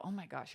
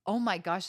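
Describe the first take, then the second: First: A softer, deflating oh my gosh, brushing the excitement off; dismissive. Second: A louder, eager oh my gosh; light up on "Oh my gosh" like they love the story; delighted. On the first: Friend shutting down your excitement, softly dismissive. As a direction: sigh out "Oh my gosh" like the friend is too much. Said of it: "they go". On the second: Supportive friend reacting to your excitement, delighted. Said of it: "the people that are like". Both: Retold or imitated.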